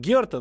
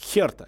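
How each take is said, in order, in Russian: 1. Название начинается с твёрдого звука G. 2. Название начинается с придыхательного звука H. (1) "У нас везде пишут Герта" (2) "любой берлинский болельщик обижается, говорит, нет, Херта"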